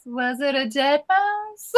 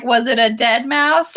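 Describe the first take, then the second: First: Slow, higher, mock-horrified "Was it a dead mouse?"; a hint of a shocked aunt asking about the mouse; lightly voiced incredulous aunt. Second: Said in the usual way. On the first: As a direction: drag out "Was it a dead mouse?" in mild disbelief. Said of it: "You just picture her face". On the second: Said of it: "she was like".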